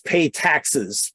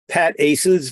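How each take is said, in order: First: The first syllable sounds like 'pay'. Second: The first syllable sounds like 'pat'. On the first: The speaker calls it wrong. "the other uh, widely used pronunciation is pay taxes, which is not the one I like" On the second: The speaker calls it right. "sometimes pronounced Pat Aces, which is the one I like"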